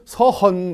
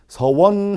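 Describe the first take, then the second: First: The second syllable is a plain heon, no glide. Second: The second syllable has a clear wo glide. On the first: The speaker calls it wrong. "혹은 서헌 이렇게 발음을 하시는 분들도 있고" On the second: The speaker calls it right. "원 발음을 제대로"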